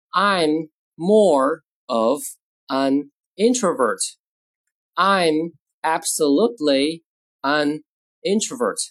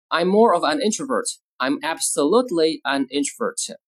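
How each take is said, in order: First: Very slow, drawn-out words; slow model reading. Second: Said in the usual way. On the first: Shown as a demonstration. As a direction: spell out the sentence word by word for learners. Teacher models sentences word by word.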